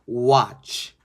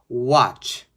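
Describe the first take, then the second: No difference in how they are said.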